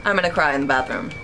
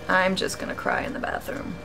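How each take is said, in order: First: Said in the usual way. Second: Unvoiced whisper, much softer. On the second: Real, not acted. Streamer muttering his despair to the chat in a whisper. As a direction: breathe it to yourself in defeat. Repeats the joke under breath.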